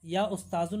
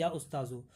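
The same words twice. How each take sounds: First: उस्ताज़ुन with an added final n; wrong tanween. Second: उस्ताज़ु ending in a short u; no tanween. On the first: Teacher shows students the wrong form of address, उस्ताज़ुन with tanween. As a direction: end उस्ताज़ुन on a sounded -un. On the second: Teacher corrects the form of address for students, उस्ताज़ु without tanween. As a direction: leave उस्ताज़ु open, without any n. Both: Shown as a demonstration. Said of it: "नहीं बोलेंगे बल्कि".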